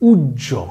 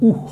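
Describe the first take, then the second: First: The middle consonant is a doubled j sound. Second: The middle consonant is an h sound. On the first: The speaker calls it right. "এই শব্দটা হচ্ছে উজ্জ" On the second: The speaker calls it wrong. "এই শব্দটার উচ্চারণ উহ নয়"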